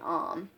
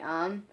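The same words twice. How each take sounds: First: The vowel sounds like the o in 'home'. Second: The vowel sounds like the u in 'up'. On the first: "like with an O M instead of U M" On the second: "I never say um"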